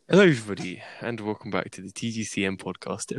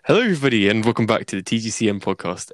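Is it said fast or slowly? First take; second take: slowly; fast. First: It is said slowly. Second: It is said fast.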